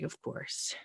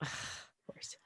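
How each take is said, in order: First: Breathy whispered "Of course". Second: Barely audible whispered "of course"; fainter whispered repeat. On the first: Daughter muttering after her dad is released without her, whispered. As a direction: mutter it under your breath in disbelief. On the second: Daughter repeating it to herself, fading whisper. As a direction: let it fade almost to nothing. Dad released after she left. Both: Retold or imitated.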